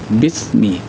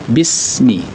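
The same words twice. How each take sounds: First: The s is said with little hissing air. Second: The s is said with a strong hissing air. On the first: The speaker calls it wrong. "Tidak boleh membaca sin itu bismi" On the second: The speaker calls it right. "harus ada bunyi desiran ketika melepas huruf itu"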